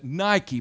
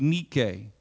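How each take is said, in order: First: The word is pronounced the English way. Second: The word is pronounced the Greek way. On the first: "that's Englishizing it" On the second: "If I pronounced it from the Greek Bible"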